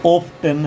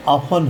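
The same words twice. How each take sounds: First: ऑफ टेन as "ohf-TEN", T sounded; rejected T reading. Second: ऑफन as "AA-fan", T left out; silent T reading. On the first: Teacher shows what it is not, ऑफ टेन with T. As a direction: split ऑफ टेन with a clear T. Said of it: "ना कि". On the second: Teacher corrects a misprint, ऑफन as aa-fan. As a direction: open aa and no T in ऑफन. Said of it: "ये ऑफन है". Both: Shown as a demonstration.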